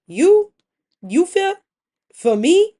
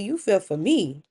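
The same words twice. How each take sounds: First: Loud, high, incredulous questions in broken pieces; accusing. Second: Said in the usual way. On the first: Acted. Wife answers husband's claim of fear, loudly accusing. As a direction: throw each piece back as a rising accusation. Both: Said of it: "like, an accusation".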